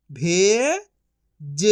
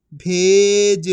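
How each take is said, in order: First: भे rising long, pause, ज; syllable by syllable. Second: Said in the usual way. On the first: Shown as a demonstration. Teacher sounding out for learners, syllable by syllable. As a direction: split भेज into two drawn-out sounds. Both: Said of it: "direct मात्रा का उच्चारण".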